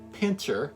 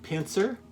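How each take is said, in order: First: The middle consonant is a 'ch' sound. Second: The middle consonant is a hissing 's' sound. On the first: "or pincher" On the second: "you could pronounce that pincer"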